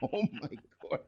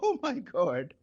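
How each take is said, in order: First: It is said in a normal voice. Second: It is said in a Mrs. Howell impression.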